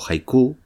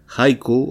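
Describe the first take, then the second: First: The stress falls on the final syllable. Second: The stress falls on the first syllable.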